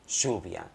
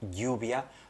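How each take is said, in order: First: It is said in an Argentine Spanish accent. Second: It is said in a non-Argentine Spanish accent. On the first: "un argentino dirá algo así como" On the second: "cuando yo digo"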